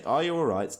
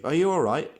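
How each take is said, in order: First: Higher, louder anxious question; lightly acted panicked check on a friend; mild panic. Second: Panicked. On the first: A narrator's reading. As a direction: ask with a touch of alarm. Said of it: "panic in his voice". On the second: Acted. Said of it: "asked with panic in his voice".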